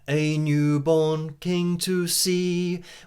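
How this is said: It is said in a clear, neutral accent. "clearer words, with a very neutral"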